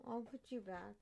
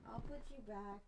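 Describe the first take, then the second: No difference in how they are said.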